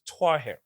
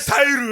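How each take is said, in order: First: The name has two syllables, starting with twa. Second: The name has three syllables, ending in an oo. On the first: The speaker calls it right. "the actual right pronunciation of the name is Twahir" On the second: The speaker calls it wrong. "He said Tahiru, right?"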